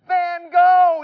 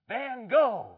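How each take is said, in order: First: It is said at a louder volume. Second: It is said at a softer volume.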